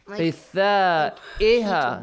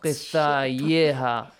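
First: A glottal stop is said before the ending. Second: A y sound is said before the ending. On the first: The speaker calls it right. "you pronounce it Hamza, not waw, not ya" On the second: The speaker calls it wrong.

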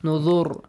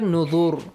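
First: The word ends on a bare consonant. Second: The word ends on a bare consonant.

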